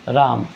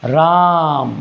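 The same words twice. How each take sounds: First: Said in the usual way. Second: राम with the आ held extra long; drawn-out Ram. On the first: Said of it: "एक होता है normal राम". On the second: Shown as a demonstration. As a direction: stretch the vowel in राम well past normal. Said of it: "एक कहें हम".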